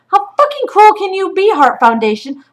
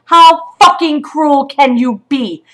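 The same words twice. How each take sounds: First: Much higher and louder, an outraged demand; furious outburst. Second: Slow and louder, each word hammered; slow furious repeat. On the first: Mother confronts the shelter over her son's heartbreak, furious. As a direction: yell the question right at them. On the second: Mother repeats her accusation to the shelter, slow and hammering. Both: Real, not acted.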